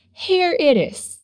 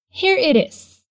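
First: "Here it is" slow, linked as "heɾ eɾ es"; slow, flap the t in "it is". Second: Said in the usual way. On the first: Shown as a demonstration. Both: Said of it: "soa como it is".

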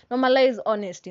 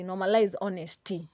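First: Normalize honesty punched out louder, Normalize stressed; emphatic slogan. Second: Said in the usual way. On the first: Real, not acted. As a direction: hammer home Normalize honesty.

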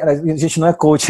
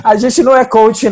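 First: Laughing. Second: Laughing, higher and louder; louder laughing repeat. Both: Real, not acted.

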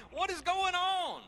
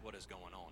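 First: High, drawn-out mock scream; desperate yell. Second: Said in the usual way. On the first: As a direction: wail it loud and slow in hammed-up panic. Acts panicked cry in battle.

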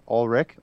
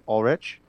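First: "Ulrich" ending in a hard K; questioning "Ulrich" with a K ending; alternative pronunciation. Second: "Ulrich" ending in CH as in rich; questioning "Ulrich" with a CH ending; alternative pronunciation. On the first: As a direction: say "Ulrich" as ALL-rick, rising like a question. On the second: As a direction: say "Ulrich" as ALL-ritch, rising like a question. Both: Shown as a demonstration. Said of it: "Tomato, tomato".

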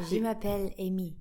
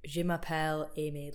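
First: French accent, slightly louder and amused; put-on French accent. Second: French said in a Scottish accent; unadapted Scottish-accented French; French in own accent. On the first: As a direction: giggly attempt at a French accent. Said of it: "put on a French accent". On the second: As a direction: keep your Scottish accent while speaking French. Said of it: "different language in your own accent". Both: Shown as a demonstration.

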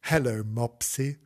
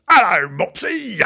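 First: Gentle voice. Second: High, loud yelled hello; mock rough greeting. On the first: A narrator's reading. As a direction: greet a timid puppy gently. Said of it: "said Gillian in a gentle voice". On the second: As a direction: bellow it as the ungentle version. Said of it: "Well, she's not gonna say".

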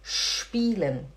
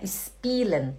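First: "spielen" as shpeelen; correct initial sh. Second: "spielen" as is-peelen; wrong plain s. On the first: Teacher correcting the mistake, "spielen" as shpeelen. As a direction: open "spielen" with a long sh. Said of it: "tem que fazer spielen". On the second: Teacher showing the mistake, "spielen" as is-peelen. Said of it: "Não é spielen". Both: Shown as a demonstration.

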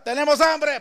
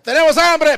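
First: Prisoners' complaint. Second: Loud, hungry yell of tenemos hambre; shouted prisoners' complaint. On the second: Prisoners yelling at guards for food. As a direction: holler it like angry prisoners. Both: Retold or imitated.

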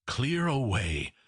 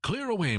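First: Said in the usual way. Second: High, hearty call to action; Fezziwig. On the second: A narrator's reading. Master ordering his lads to make room, high and jovial. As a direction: cry it out as a jolly master, pitched way up. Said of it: "cried old Fezziwig".

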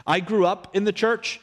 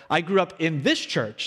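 First: Said in the usual way. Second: This pressed a little harder than the rest; stress on this. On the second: Real, not acted. Pastor to newcomers, gently stressing this. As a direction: lean on the word this in this church.

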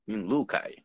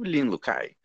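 First: Lin Lu Kai slow, rising at the end, weight on Lu; father's tone correction. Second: Lin Lu Kai said slowly, falling at the end; a beginner's try at "Lin Lu Kai", drawn out with a falling tune; learner's Mandarin tones. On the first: Host father correcting his exchange student's name, Lin Lu Kai with a rising tune. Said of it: "Aí virava meu, meu pai assim". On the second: Newcomer giving his Chinese name at a Rotary event, learner's falling intonation on Lin Lu Kai. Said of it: "demorei um tempo pra, até pra entender como é que falava a entonação do meu nome".

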